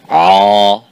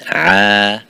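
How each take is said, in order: First: The ayn sound is heavy and full. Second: The ayn sound is light and thin. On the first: The speaker calls it wrong. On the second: The speaker calls it right.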